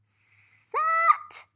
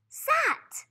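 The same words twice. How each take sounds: First: High, loud "Sat" announced; excited blend. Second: Whispered word. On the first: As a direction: cheer out "Sat" as a discovery. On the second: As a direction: breathe "sat" as a secret. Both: Shown as a demonstration. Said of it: "and it says".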